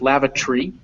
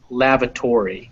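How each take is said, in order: First: The vowel before the final syllable is dropped. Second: The vowel before the final syllable is kept. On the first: "in British English it's lavatory. It's lavatory" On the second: "In the U S pronunciation, it's lavatory. We keep that O"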